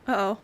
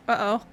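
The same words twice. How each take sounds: The two takes are said the same way.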